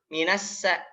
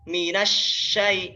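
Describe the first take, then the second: First: The consonant is a narrow s sound. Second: The consonant is an open sh sound. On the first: The speaker calls it wrong. "sya-nya malah suka malu-malu" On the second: The speaker calls it right. "Yang betul seperti apa? ... Kenapa harus terbuka?"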